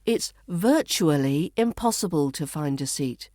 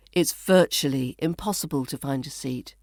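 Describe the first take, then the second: First: Careful, spaced reading with "virtually" as VUR-choo-uh-lee; "virtually" carefully said in full; full pronunciation. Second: Connected reading with "virtually" as VUR-chuh-lee; "virtually" shortened, flowing straight on; reduced pronunciation. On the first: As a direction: give "virtually" all four syllables, set apart. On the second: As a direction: run it together, "virtually" in three syllables. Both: Shown as a demonstration. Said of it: "becomes virtually".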